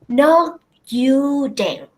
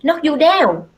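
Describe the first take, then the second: First: Pauses split the words, spoken at low pitch. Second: The phrase runs on smoothly at normal pitch. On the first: The speaker calls it right. "She used her pauses and also low pitch to say those three words" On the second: The speaker calls it wrong. "She didn't say knock you down"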